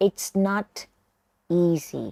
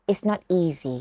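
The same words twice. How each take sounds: First: "It's not" and "easy" split by a clear pause; word by word. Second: Said in the usual way. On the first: Shown as a demonstration. (พูดแยกทีละช่วง เว้นจังหวะก่อน "easy") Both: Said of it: "ฝึกฟังแล้วออกเสียงตามครูหนุนนะคะ".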